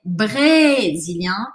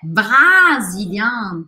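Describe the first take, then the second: First: The first vowel sounds like 'e'. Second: The first vowel sounds like 'a'. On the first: The speaker calls it right. "É brésilien" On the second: The speaker calls it wrong. "não é brasilien"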